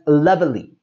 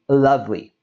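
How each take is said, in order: First: An extra vowel is sounded in the middle. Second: The middle vowel is dropped, giving two syllables. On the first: The speaker calls it wrong. "there is a common tendency to pronounce this as lovely" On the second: The speaker calls it right. "We drop that E and we say lovely"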